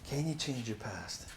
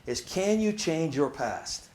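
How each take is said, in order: First: Can you change your past said again much softer; soft repeat. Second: Can you change your past drawn out slowly; slow question. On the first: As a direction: let the question hang quietly. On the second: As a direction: let each word of the question sit. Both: Shown as a demonstration. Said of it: "let it sit for a minute".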